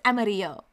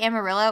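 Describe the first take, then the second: First: It is said with a Spanish-style pronunciation. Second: It is said with an English-style pronunciation. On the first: The speaker calls it right. "it's not Amarillo. It's Amarillo" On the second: The speaker calls it wrong. "I say Amarillo"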